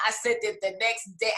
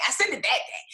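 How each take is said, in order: First: Said in the usual way. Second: THAT stressed as a quick self-correction. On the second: Real, not acted. Author correcting when she sent it, stress on THAT. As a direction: punch the word "that" to correct yourself.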